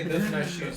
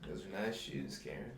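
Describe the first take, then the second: First: The compliment is said in a plain, casual tone. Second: The compliment is said in a creepy, suggestive tone.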